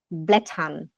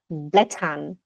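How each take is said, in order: Both takes have the same delivery.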